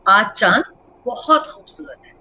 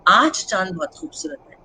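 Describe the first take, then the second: First: The stress is on बहुत. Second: The stress is on चांद.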